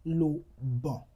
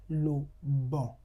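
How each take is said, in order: First: Bon with open nasal on; French nasal example. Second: Bon repeated with the same nasal on; French nasal repeat. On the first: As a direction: model bon slowly with a nasal vowel. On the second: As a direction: echo bon with a nasal vowel. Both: Shown as a demonstration. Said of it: "You have".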